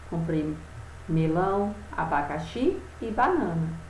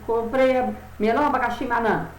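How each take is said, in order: First: The list items are separated by short pauses. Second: The list items run together without pauses. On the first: The listener can understand the message. The speaker calls it right. "Tá vendo como é diferente" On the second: The listener cannot follow the message. The speaker calls it wrong. "Vai ficar embolado"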